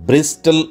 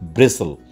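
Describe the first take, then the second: First: The t is sounded. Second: The t is silent. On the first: The speaker calls it wrong. "কিন্তু ব্রিস্টল উচ্চারণ করা যাবে না" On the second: The speaker calls it right. "টি ছেড়ে দিয়ে silent করে"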